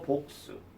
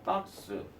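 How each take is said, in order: First: It is said in a British accent. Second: It is said in an American accent. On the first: "영국식 영어" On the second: "미국식 영어"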